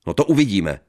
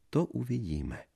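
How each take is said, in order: First: Loud threatening warning; loud threat. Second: High, soft mocking echo. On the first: Acted. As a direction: warn her sharply. Husband threatens. (hlasitá výhrůžka) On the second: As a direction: parrot him teasingly. Wife echoes mockingly. (posměšná ozvěna)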